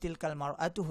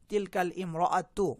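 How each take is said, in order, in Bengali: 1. 'mra'atu' এর আগের স্বরধ্বনিটি বাদ যায়। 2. 'mra'atu' এর আগের স্বরধ্বনিটি পুরোপুরি উচ্চারিত হয়। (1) "এই আলিফ লামটা আর প্রোনাউন্স হয় না" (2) "আলিফ লাম যোগ করলে হওয়া দরকার ছিল"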